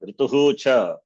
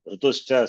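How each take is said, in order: First: The two words are said separately. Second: The two words are fused into one word. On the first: "if we can split" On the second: "viva sandhi is happened"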